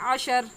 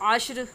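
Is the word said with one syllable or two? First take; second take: two; one. First: An extra vowel splits the word into two syllables. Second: The final consonants join in a single syllable. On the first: The speaker calls it wrong. "जो कि गलत है" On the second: The speaker calls it right. "सही लफ्ज़ क्या है"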